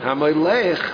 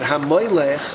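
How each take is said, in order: First: The stress is on the final syllable. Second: The stress is on the second-to-last syllable. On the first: It means the one who rules. "HaMoylech Mul'ra is someone who rules" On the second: It names an idol. "HaMoylech Mul'el is the name of an Avodah Zarah"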